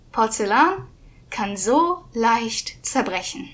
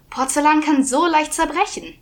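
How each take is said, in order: First: Slow echoing repeat. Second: Scolding man. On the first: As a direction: draw it out like an echo. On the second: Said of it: "Ein Mann sagte". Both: Acted.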